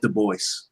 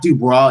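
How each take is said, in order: First: The name is pronounced the English way. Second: The name is pronounced the French way. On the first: The speaker calls it right. "that's sort of like the Anglicanization of it" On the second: The speaker calls it wrong. "Did you pronounce it like the French?"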